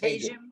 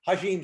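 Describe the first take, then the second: First: The name sounds like calling 'Hey, Jim'. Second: The name does not sound like 'Hey, Jim'. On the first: This is how the name is actually pronounced. "but it's Hajim" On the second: This is the nicer-sounding version people might use. "Hajim sounds much better"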